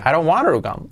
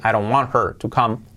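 First: The h in 'her' is dropped. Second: The h in 'her' is pronounced. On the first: "con la H omitida y la T como resuave" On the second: "pues puedes poner la H"

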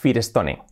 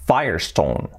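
First: It is read with Spanish vowels, letter by letter. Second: It is said with English sounds, like fire-stone. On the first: The speaker calls it wrong. "decimos nosotros aquí, por lo menos en España, decimos Firestone" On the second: The speaker calls it right. "la pronunciación es, fijaos que es Firestone"

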